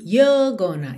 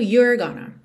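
First: The r is dropped, with no curled tongue. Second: The r is pronounced with a curled tongue. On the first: "Não enrola a língua, porque tá com sotaque britânico" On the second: "se você estiver cantando com sotaque mais americano"

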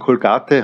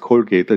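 First: The name is pronounced the German way. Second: The name is pronounced the English way. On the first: This is how it is said in Germany. "in Deutschland muss man sich verdeutschen" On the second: This is how it is said everywhere else. "überall anders"

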